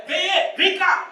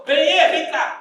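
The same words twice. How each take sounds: First: Loud, high shouted call; wife calling out. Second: Loud, high call across the house; wife calling out. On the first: Wife calling Benê again, loud and high. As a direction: shout for the husband to come. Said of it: "Aí". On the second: Wife calling her husband Benê to come, loud and high. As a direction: call the husband from another room. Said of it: "Ela foi lá e falou". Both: Retold or imitated.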